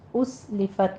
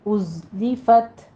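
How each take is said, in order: First: The second sound is a hissing s. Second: The second sound is a buzzing z. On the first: The speaker calls it wrong. "उस लिफत नहीं कहना है, बारीक नहीं रखना है" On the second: The speaker calls it right. "ज़य की आवाज़ कभी रखते हुए सीटी की आवाज़ लेकर आए"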